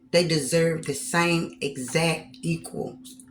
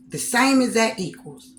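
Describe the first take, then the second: First: Said in the usual way. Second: "same" raised and hit harder; stress on same. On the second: Real, not acted. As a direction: lean on "same" in "The same exact equals".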